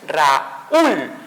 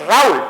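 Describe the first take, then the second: First: "Raúl" split into RA, ÚL with a pause; syllable by syllable. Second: "Raúl" run together as one syllable. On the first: Teacher showing the hiatus, "Raúl" broken into ra-úl. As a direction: separate "Raúl" as ra... úl. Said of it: "El sonido fuerte se dio en la U". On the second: Teacher showing the wrong division, "Raúl" as a single syllable. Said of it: "Cuando dividimos silábicamente no es". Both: Shown as a demonstration.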